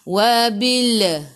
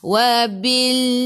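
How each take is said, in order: First: The final L ends with a bouncing echo. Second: The final L is held clear without bouncing. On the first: The speaker calls it wrong. "Jangan wabil" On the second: The speaker calls it right. "Kita nak wabil"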